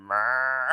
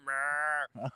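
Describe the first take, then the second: First: Mirror bleated as mə; sheep-like mirror. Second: Mirror bleated short like a sheep, mə. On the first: Teasing listeners abroad, Mirror bleated like a sheep. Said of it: "Like fucking sheep". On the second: Mocking partner Nicole's accent, Mirror bleated like a sheep. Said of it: "Turned into a sheep there?". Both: Retold or imitated.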